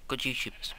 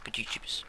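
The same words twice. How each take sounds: First: Said in the usual way. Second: Softer whispered repeat. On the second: Shown as a demonstration. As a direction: whisper it back.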